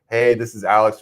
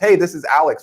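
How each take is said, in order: First: The greeting is said flatly with low energy. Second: The greeting is said brightly with high energy. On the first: The caller is just going through the motions. The speaker calls it wrong. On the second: The caller feels fresh and positive. The speaker calls it right. "let's be energetic. Let's go like that"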